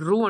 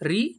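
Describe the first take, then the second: First: The vowel is said with an u sound. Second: The vowel is said with an i sound. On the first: The speaker calls it wrong. "ఇది రు అంటాం మనం తెలుగులో. యాక్చువల్గా ఇది రు కాదండి" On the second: The speaker calls it right. "రీ అని చెప్పేసి ఉచ్చారణ చేయాలి"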